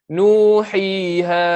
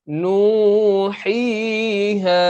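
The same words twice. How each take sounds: First: It is recited at a fast pace. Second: It is recited at a medium pace.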